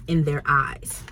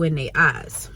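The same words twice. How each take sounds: First: "their eyes" enunciated carefully, with THEIR fully pronounced, lower; careful correction. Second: Said in the usual way. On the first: Shown as a demonstration. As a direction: say "in their eyes" with a clear r in "their", pitched down. Repeats phrase in careful standard pronunciation.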